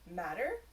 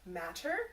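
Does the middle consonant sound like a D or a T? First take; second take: D; T. First: The middle consonant sounds like a soft D. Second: The middle consonant is a clear T sound.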